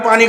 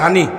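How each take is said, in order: First: The word begins with a p sound. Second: The word begins with an h sound. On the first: This is the standard form, not the Noakhali form. "Noakhali পানি কইতার না" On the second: This is how Noakhali speakers say it. "কয় হানি"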